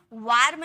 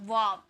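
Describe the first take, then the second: First: वार्म with the R fully sounded; wrong full R. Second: वार्म with the R nearly silent; half R. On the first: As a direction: say वार्म as "vaar-m", clear R. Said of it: "वार्म नहीं". (वार्म में पूरा र बोलते हुए) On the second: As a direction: say वार्म as "vaam", no audible R. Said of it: "आर को half में pronounce करते". (वार्म में र आधा, लगभग चुप) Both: Shown as a demonstration.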